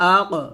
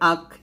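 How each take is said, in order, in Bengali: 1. শেষের q একটি প্রতিধ্বনিত ঝাঁকুনি দিয়ে শেষ হয়। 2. শেষের q সোজাসুজি থেমে যায়, কোনো ঝাঁকুনি ছাড়া। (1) "বলতে হবে" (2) "এটা বলা যাবে না"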